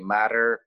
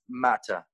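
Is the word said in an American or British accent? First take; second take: American; British. First: It is said in an American accent. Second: It is said in a British accent. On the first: "show my American accent to my friends, and I read it" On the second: "in British accent, it's matter"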